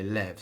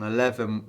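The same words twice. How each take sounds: First: "lev" as one clipped syllable; one-syllable "lev" in the count. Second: "eleven" said with all three syllables; full eleven. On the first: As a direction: shorten "eleven" to "lev". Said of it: "we just say lev". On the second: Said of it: "and on eleven". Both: Shown as a demonstration.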